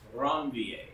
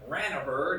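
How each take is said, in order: First: The name is said with French-style sounds. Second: The name is said with English-style sounds. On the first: "it's pronounced with the French name Ranvier" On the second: "if you want to pronounce it Ranaver, that's fine"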